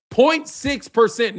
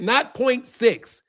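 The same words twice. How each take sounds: First: Slow, each word set apart: point six percent; stress on point six percent. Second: Slow, quieter, not point six; wrong version, dismissed. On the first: Streamer correcting chat's number, slow and pointed. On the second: Streamer showing chat the wrong figure, slow and dismissive. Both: Shown as a demonstration.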